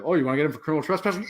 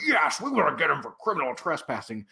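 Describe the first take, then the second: First: Quick checking question; fast, rising check of someone's demand; retold query. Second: Mock officious confirmation; imitated emphatic yes to a question; insistent guard. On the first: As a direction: rattle it off as a question. Retold cop checks guard's demand. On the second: Retold guard insists in answer.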